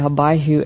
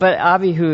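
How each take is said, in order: First: The name is pronounced in an English style. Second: The name is pronounced in a Hebrew style. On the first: "what we usually say" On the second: "is how you would pronounce it in Hebrew"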